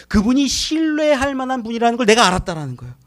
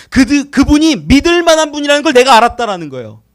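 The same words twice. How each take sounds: First: Said in the usual way. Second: Louder restated. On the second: Real, not acted.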